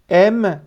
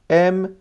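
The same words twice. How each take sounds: No difference in how they are said.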